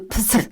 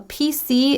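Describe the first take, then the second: First: It is said as one single word. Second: Each letter is said separately. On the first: The speaker calls it wrong. "you can't pronounce it like a word. We don't say" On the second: The speaker calls it right. "we say each letter"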